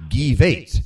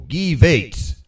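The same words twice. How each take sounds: First: "Guy Vates" slow, high, mock German; "Guy Vates" as mock German name; dyslexic German. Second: "Guy Vates" with hard G, "Vates" rhyming with gates; dyslexic German. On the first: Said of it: "It's called dyslexic German". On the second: Pretend. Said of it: "that new dialect of German".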